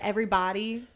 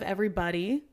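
First: It is said in a Southern American accent. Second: It is said in a standard American accent. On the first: "I'm getting a Southern accent now. like I've started saying like everybody" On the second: "instead of everybody"

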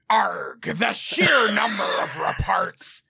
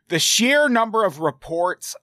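First: It is said in a pirate voice. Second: It is said in a normal voice.

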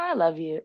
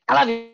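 First: It is said warmly and affectionately. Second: It is said curtly and briskly.

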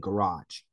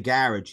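First: Garage is pronounced with an American accent. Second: Garage is pronounced with an English accent. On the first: It shows off years spent in America. "he'd say garage" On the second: It is the expected local way of speaking. "he wouldn't say garage"

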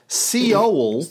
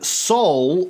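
First: Seoul is said like old American newsreels. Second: Seoul is said the ordinary present-day way.

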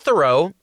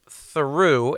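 First: The name is said the commonly heard way. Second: The name is said the family's own way. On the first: The speaker calls it wrong. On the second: The speaker calls it right.

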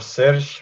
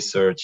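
First: The name is said with a Belgian pronunciation. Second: The name is said with an English pronunciation. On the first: "in Belgium we say Serge" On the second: "usually the English speaking people they say Serge"

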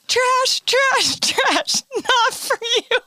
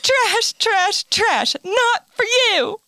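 First: It is said while laughing. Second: It is said without laughing.

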